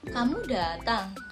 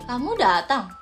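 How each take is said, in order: First: It is said as a question. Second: It is said in an angry tone. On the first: "kayak nanya gitu" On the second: "kalau nada marah kayak kamu datang"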